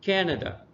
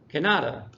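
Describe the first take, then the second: First: The stress is on the first syllable. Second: The stress is on the middle syllable. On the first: The speaker calls it right. "the emphasis is there at the first syllable" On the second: The speaker calls it wrong. "if I move it to the middle"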